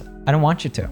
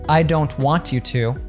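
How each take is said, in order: First: The t and y merge into ch. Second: The t and y stay separate sounds.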